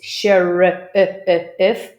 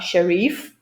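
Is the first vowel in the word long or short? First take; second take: short; long. First: The first vowel is short and unstretched. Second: The first vowel is long and stretched. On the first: The speaker calls it right. "it's sheriff" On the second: The speaker calls it wrong. "not sharif"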